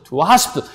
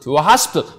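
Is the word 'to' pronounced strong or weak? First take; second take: weak; weak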